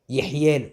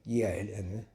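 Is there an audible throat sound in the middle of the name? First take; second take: yes; no. First: A guttural throat sound is heard mid-name. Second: The middle throat sound is dropped entirely. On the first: The speaker calls it right. "au lieu de dire Yehiel" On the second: The speaker calls it wrong. "il dit Yiel"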